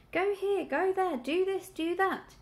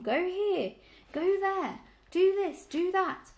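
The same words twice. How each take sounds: First: High, urgent piglet squeak; furious squeak. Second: High, loud grumbling list of orders; hoarse, complaining. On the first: Dreaming piglet trying to round up sheep, furiously squeaking. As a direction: squeak out the orders in quick succession. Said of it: "he squeaked fur-, furiously at them". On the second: Old ewe mocking the dogs' orders, hoarse and complaining. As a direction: pound out each order in an old ewe's grumble. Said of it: "a hoarse, complaining voice". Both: A narrator's reading.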